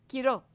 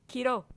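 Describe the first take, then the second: No difference in how they are said.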